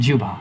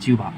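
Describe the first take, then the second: Both takes have the same delivery.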